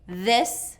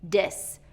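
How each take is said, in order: First: It begins with the tongue between the teeth. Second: It begins with a d sound. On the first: The speaker calls it right. "we need that tongue between our teeth" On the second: The speaker calls it wrong. "pull that to the back of the teeth ... to a D"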